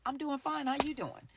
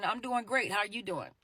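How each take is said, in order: First: "I'm doing fine" higher and softer, a little hollow; guarded answer. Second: Said in the usual way. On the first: Shown as a demonstration. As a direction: answer politely while holding something back. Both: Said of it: "how you answer a question".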